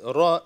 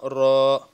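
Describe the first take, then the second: First: The vowel after r is short. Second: The vowel after r is stretched long. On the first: The speaker calls it right. "ra with the fatha is ra" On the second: The speaker calls it wrong. "not ra"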